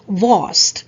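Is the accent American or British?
British. It is said with a British accent.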